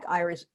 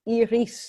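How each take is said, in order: First: The name is said the American way. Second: The name is said the Dutch way.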